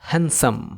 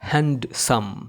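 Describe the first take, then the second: First: The d sound is left silent. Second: The d sound is clearly pronounced. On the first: The speaker calls it right. "কিন্তু এটার সঠিক উচ্চারণ হবে হ্যান্ডসাম" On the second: The speaker calls it wrong. "এটাকে অনেকে উচ্চারণ করে থাকে হ্যান্ডসাম"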